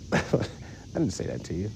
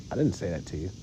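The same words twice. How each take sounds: First: Breathy laughing through it, slow; softer slow chuckling "I didn't say that to you"; laughing denial. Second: Said in the usual way. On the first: Real, not acted.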